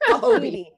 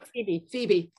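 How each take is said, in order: First: The name is said as Pahobie. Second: The name is said as Phoebe.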